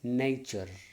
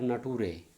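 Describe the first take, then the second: First: The middle consonant is a 'ch' sound. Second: The middle consonant is not a 'ch' sound. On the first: The speaker calls it right. "It is nature" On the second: The speaker calls it wrong. "It is not nature"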